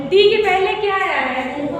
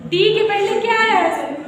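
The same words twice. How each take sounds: The two takes are said the same way.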